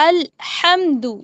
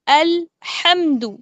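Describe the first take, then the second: First: The h sound is clear and distinct. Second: The h sound is clear and distinct.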